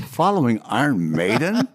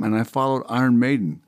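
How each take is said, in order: First: "Following Iron Maiden?" drawn up into a rising question; incredulous echo. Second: Said in the usual way. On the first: Acted. Singer marvelling at following Iron Maiden, incredulous rising question.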